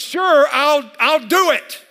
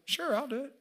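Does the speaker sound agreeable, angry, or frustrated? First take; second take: angry; agreeable. First: The voice sounds angry and sharp. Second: The voice sounds willing and agreeable. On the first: The speaker is mad about the task. "I'm mad about this picture" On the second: The speaker is happy to help. "One was, I got you"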